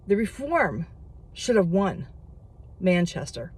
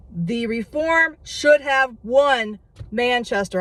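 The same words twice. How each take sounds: First: Said in the usual way. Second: Worked up. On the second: Real, not acted. Vlogger to viewers repeating the loss, worked-up insistence. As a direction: repeat it again, heated and insistent. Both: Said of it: "I'm getting worked up".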